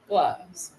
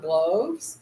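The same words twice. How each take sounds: First: The vowel is a short u sound. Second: The vowel is a long o sound. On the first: The speaker calls it right. "It could be the short sound" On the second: The speaker calls it wrong. "always start with it long"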